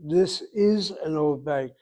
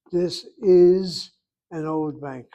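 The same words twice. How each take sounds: First: Slow, even teacher model; slow model sentence. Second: Slow and loud, stress on is; louder slow model. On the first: Teacher modeling the sentence for the class, slow and clear. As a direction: say it slowly for the class to copy. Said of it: "Again, people". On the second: Teacher repeating the translation louder and slower, stress on is. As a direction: spell it out loud for the class. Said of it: "Ze bank yashan". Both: Shown as a demonstration.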